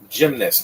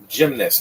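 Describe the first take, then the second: First: It is said with two syllables, gym-nast. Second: It is said with two syllables, gym-nast.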